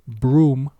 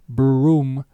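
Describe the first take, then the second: Both takes have the same delivery.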